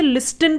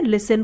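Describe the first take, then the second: First: "लिस्टन", the common misreading with an audible T; T pronounced. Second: "लिसन" with the T left silent, S running straight into the N syllable. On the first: Teacher showing learners a common misreading, "लिस्टन" with the T sounded. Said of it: "बहुत से लोग इसे लिस्टन पढ़ते हैं". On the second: Teacher showing learners how listen is read, "लिसन" with silent T. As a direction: say "लिसन" with no T sound after the S. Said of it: "इसमें जो टी होता है वो साइलेंट होता है". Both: Shown as a demonstration.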